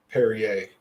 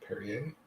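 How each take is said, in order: First: Said in the usual way. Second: Soft unsure rising Perrier?; quiet questioning echo. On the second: Real, not acted. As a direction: say Perrier? softly, as if checking the name. Echoes own word as question.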